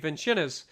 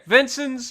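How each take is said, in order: First: The name is said with an Italian-like sound. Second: The name is said like the English 'Vincent's'. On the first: This is how the spelling seems to suggest it. The speaker calls it wrong. "it looks Italian, so it sounds like it should be" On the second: This is how locals actually say it. The speaker calls it right. "is what I'll call it then"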